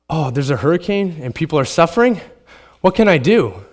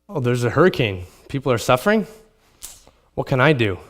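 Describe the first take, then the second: First: It sounds concerned, genuinely seeking an answer. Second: It sounds indifferent, as if nothing can be done.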